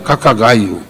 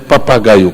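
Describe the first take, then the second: First: The first consonant is a K-like sound, lips still. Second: The first consonant is a P made with the lips. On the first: The speaker calls it right. "o P também não fala" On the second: The speaker calls it wrong. "não é papagaio"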